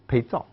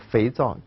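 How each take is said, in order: First: The word begins with a b sound. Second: The word begins with an f sound.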